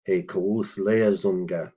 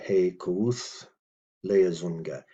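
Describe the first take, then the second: First: Said in the usual way. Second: Slow "he kuuth", pause, then "leazunga"; teacher separating "he kuuth" from "leazunga"; slow, broken up. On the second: Shown as a demonstration. Slower repeat for learners.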